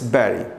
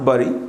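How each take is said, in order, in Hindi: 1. यह शब्द 'berry' की तरह बोला जाता है। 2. यह शब्द 'burry' की तरह बोला जाता है। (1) "इट्स बैरी ... जैसे ब्लैकबेरी, मलबरी" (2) "कई लोग गलती से बरी बोलते हैं। दिस नॉट बरी"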